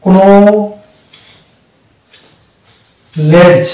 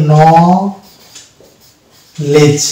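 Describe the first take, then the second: First: কোনো লেজ, each letter sounded with a pause; wrong pronunciation. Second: ন লেজ with k and d silent; correct pronunciation. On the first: Teacher showing the misreading of knowledge. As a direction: split কোনো লেজ into two slow parts. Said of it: "তাহলে হয়ে যাবে কি". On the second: Teacher modelling the correct pronunciation. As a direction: say ন লেজ as one clean word. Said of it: "real উচ্চারণটা কি হবে". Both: Shown as a demonstration.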